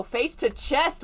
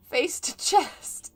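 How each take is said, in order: First: Said in the usual way. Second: "Face to chest" said slowly and pointedly, higher; emphatic correction. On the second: Shown as a demonstration. Reader stresses her correction of the misread phrase "Face to chest". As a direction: spell out "Face to chest" word by word. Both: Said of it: "is how I wrote that".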